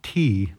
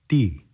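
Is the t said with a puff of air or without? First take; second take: puff; without. First: The t is released with a puff of air. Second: The t is released with no puff of air. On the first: The speaker calls it wrong. "it's not T. There should be no explosives in the T" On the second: The speaker calls it right. "There should be no air coming out of your mouth"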